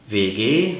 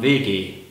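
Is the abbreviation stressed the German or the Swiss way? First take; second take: German; Swiss. First: The letters are stressed the way Germans stress them. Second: The letters are stressed the way the Swiss stress them. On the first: "in Deutschland sagt man W G" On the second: "in der Schweiz sagt man W G"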